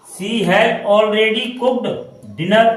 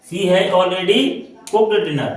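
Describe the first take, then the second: First: "she has already cooked dinner" said very slowly, word by word; slow dictation. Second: Said in the usual way. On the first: Shown as a demonstration. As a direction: spell each word out slowly for the class. (धीमे-धीमे, एक-एक शब्द पर रुककर)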